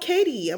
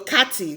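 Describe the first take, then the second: First: The T is softened, American style. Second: The T is pronounced clearly, Nigerian style. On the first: "And then I'm like, oh" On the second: "me, I'll say, oh, I'm at Katy"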